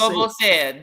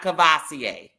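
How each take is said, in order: First: The word begins with a 'coor' sound. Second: The word begins with a 'cav' sound. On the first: The speaker calls it right. "That's the correct way to say it" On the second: The speaker calls it wrong. "not Cavassier"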